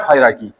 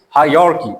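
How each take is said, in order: First: Hierarchy as "HAI-ra-ki"; rejected pronunciation. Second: Hierarchy as "hai-YAR-ki"; corrected pronunciation. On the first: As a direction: say hierarchy with R straight after "hai". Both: Shown as a demonstration. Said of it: "Actually, it's hierarchy".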